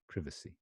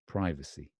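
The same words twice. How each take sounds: First: It is said with a British pronunciation. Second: It is said with an American pronunciation. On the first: "that's the uh, British pronunciation" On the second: "And then you've got the American pronunciation"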